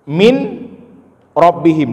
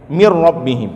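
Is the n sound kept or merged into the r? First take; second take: kept; merged. First: The n is pronounced clearly before the r. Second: The n merges into a doubled r sound. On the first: "min rabbihim dibaca" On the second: "dibaca mir rabbihim"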